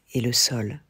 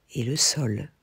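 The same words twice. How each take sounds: The two takes are said the same way.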